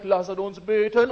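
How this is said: It is said in a solemn, grave tone. Prayer is approached with fear of a judging God. The speaker calls it wrong.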